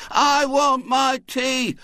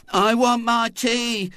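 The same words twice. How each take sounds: First: High, very slow, loud sing-song chant; children chorusing. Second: High, slow, doleful whine; doleful boy.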